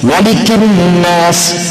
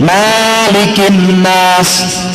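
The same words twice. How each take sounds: First: The vowel after the m is kept short. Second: The vowel after the m is held long. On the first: The speaker calls it right. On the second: The speaker calls it wrong.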